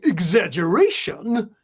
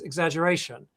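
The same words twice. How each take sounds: First: The word is said in a big, over-the-top way. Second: The word is said plainly and calmly.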